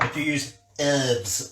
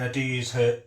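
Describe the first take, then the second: First: Herbs is said the American way, silent h. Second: Herbs is said with a British h sound.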